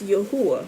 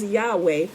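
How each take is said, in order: First: The middle has an added oo sound. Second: The middle has a plain w sound. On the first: The speaker calls it right. "The U makes the oo sound" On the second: The speaker calls it wrong. "people pronounce it Yahweh"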